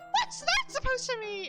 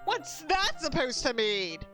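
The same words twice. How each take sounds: First: It is said in a Cat Valentine impression. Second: It is said in the reader's own voice.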